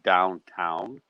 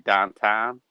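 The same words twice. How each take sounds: First: It is said in a standard, non-local accent. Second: It is said in a local Pittsburgh accent. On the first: This is how others say it. "instead of downtown" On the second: This is how locals say it. "like we say downtown"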